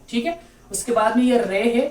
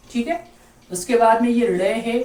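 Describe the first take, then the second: No difference in how they are said.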